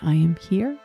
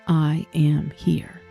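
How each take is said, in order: First: It is quiet and rises like a question. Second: It is firm and falls to a full stop.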